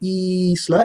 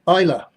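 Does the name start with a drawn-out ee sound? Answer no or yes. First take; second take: yes; no. First: The name starts with a long drawn-out ee sound. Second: The name starts without a drawn-out ee sound. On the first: The speaker calls it wrong. "revert to calling you Isla, E E E E E E S L A" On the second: The speaker calls it right. "Isla says it is pronounced Isla"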